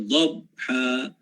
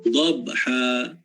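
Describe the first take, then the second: No difference in how they are said.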